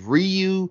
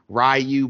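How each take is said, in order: First: It does not begin like 'rye'. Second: It begins like 'rye' followed by 'you'. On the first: This is said to be the official pronunciation. "but apparently it's Ryu" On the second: This is how the neighborhood has always said it. "I got a cousin named Rai, R-Y, and then you, Ryu"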